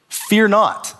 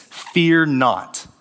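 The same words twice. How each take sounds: First: "Fear not" lifted higher with weight on Fear; emphatic repeat. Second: Said in the usual way. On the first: Shown as a demonstration. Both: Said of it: "no command ... more repeated".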